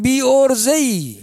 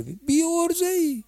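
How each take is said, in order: First: Slow, pitched-up scolding of a hopeless man. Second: Much higher, slow, sing-song jeer; mock him in a high teasing voice; mocking scold. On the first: Acted. Preacher chiding a man who never learned to ask, slow and scolding. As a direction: drag out the reproach. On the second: Preacher mocking the congregant's excuses in a high teasing jeer.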